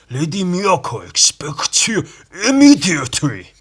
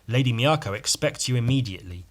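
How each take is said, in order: First: It is read in a stereotypical Japanese accent. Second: It is read in a plain, normal voice.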